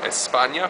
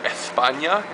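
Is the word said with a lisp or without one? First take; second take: no lisp; lisp. First: It is said without a lisp, Latin American style. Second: It is said with a lisp, Spain style. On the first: This is how Latin Americans say it. "instead of España" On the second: This is how people in Spain say it. "They have an institutionalized lisp. They say España"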